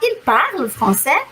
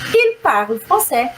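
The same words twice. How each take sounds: First: It has the tune of a question. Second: It has the tune of a statement. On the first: The speaker is asking whether he speaks French. "Se você me perguntar" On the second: The speaker is answering that he speaks French. "Estou respondendo"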